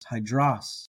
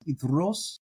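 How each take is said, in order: First: The word starts with an h sound. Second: The word starts directly with a vowel. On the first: "if you were to pronounce the rough breathing like they do in Erasmian, you get hydros" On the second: "Notice how different that sounds"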